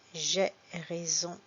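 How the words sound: The vowels are said with an 'è' sound. "parfois je dis est"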